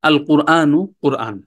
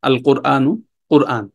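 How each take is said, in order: The two takes are said the same way.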